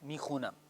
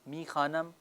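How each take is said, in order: First: The vowel after 'kh' is a 'u'. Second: The vowel after 'kh' is a long 'a'. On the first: This is the spoken, colloquial form. "कह देते हैं मी खूनम" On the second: This is the written, formal form. "लफ्ज़ है मी खानम"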